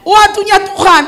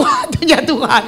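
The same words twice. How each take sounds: First: High and loud declaration; preacher declaring God's timing loudly to the church; loud proclamation. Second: God's timing said through a laugh; laughing while reminding the congregation of God's timing. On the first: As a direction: proclaim it firmly to the congregation. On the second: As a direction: chuckle it out to the congregation. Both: Real, not acted. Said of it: "betul nggak".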